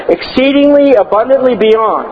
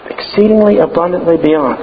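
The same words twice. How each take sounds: First: High, slow, stressed Exceedingly abundantly beyond; emphatic. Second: Said in the usual way. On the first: Real, not acted. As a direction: draw out each word of Exceedingly abundantly beyond. Repeated phrase for emphasis.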